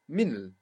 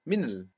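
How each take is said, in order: First: The small i is dropped, giving one syllable. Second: The small i is dropped, giving one syllable.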